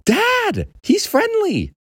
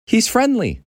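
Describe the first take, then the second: First: Put-on very high-pitched boy's cry; urgent insisting. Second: Put-on high boy voice, not yet shouting; anxious reassurance. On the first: Boy grabbing dad's face to be heard, urgent insisting. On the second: Boy's first try at calming frozen dad, anxious reassurance. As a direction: reassure in a high, tentative kid voice.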